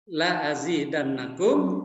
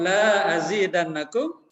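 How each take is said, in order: First: The vowel in 'la' is short. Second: The vowel in 'la' is long. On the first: I will surely increase it for you. The speaker calls it right. "La-nya pendek ya" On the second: I will not increase it for you. The speaker calls it wrong. "tidak kutambah"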